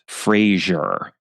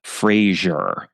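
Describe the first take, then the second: First: The name is said the American way. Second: The same.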